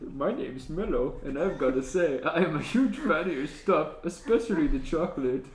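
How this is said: It is said in an enthusiastic, eager tone.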